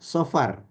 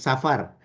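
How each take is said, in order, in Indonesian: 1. Vokal pertama itu 'o' yang lebih gelap dan bulat. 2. Vokal pertama itu 'a' terbuka, biasa. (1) "Yang benar itu sofar ngomongnya" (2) "Mbak Sihan kan bilang begini"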